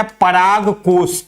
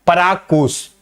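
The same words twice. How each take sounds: First: पराग कोश said slowly, each word drawn out and stressed on Parag; slow drilled term. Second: Said in the usual way. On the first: Shown as a demonstration. Teacher drilling students on the Hindi term, slow and deliberate. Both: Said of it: "पराग कोश के नाम से जानते हैं बेटा".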